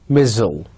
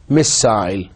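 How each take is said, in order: First: American "missile" as "mizzle", with a short reduced second syllable; General American. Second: RP "missile" ending in "-sile" like "aisle"; British RP. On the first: Teacher modelling American "missile" for students. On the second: Teacher modelling RP "missile" for students. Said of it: "R P". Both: Shown as a demonstration.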